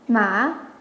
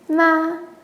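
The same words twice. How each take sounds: First: The syllable carries the third tone. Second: The syllable carries the first tone. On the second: "the first"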